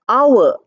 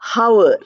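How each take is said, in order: First: The word starts with a vowel, no h sound. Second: The word starts with an audible h sound. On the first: The speaker calls it right. "you pronounce it as our, O U R" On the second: The speaker calls it wrong. "We don't pronounce it as hour"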